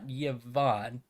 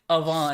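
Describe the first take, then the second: First: The name starts with a 'y' glide sound. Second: The name starts with an open 'a' sound. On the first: The speaker calls it wrong. "It's not Yvonne" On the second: The speaker calls it right. "it's like Avon"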